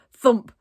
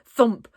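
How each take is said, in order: Both takes have the same delivery.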